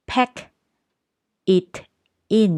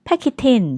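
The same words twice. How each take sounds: First: "pack" "it" "in" said as three separate words with pauses; slow and separated, no linking; word by word, unlinked. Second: "Pack it in" run together quickly as "pa-ki-tin"; fast linked. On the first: Teacher reading each word on its own: "pack it in". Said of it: "ปกติจะต้องอ่านว่า". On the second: Teacher showing native speed: "Pack it in" linked and fast. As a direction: say "Pack it in" fast and linked, a bit higher and louder. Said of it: "เวลาฝรั่งพูดก็ ก็จะพูดเร็วๆ". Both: Shown as a demonstration.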